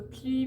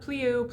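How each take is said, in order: First: The vowel stays steady without any glide. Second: The vowel glides into an oo sound. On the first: The speaker calls it right. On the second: The speaker calls it wrong.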